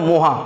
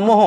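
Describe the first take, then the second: First: Teacher says মহা with an open a and a long final a; right form shown. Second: Teacher says মোহ with a short o, as the wrong choice; wrong form shown. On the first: Teacher corrects pupils with the right word, plainly. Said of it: "মোহ বলে কিছু হয় না, মহা". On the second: Teacher shows pupils the word to reject, plainly. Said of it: "মোহ বলে কিছু হয় না". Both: Shown as a demonstration.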